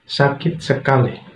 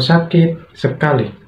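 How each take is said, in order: First: The two words run together without pause. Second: A pause separates the two words. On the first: The speaker calls it right. "sekaligus lah tanpa ada unsur jeda" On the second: The speaker calls it wrong. "itu tidak"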